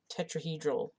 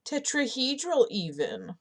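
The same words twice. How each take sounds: First: Said in the usual way. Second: Tetrahedral said higher and louder, stressed; emphatic Tetrahedral, proud of the word; emphatic correction. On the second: Shown as a demonstration. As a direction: hit Tetrahedral hard as the better word.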